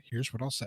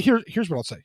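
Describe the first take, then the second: First: Much softer, lower repeat; secretive murmur of the same words; hushed aside. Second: Said in the usual way. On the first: Real, not acted. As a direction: drop to a confiding hush.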